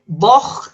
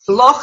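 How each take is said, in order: First: It is said the Gaelic way. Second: It is said the English way. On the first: "but voch in Gaelic" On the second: "Loch in English"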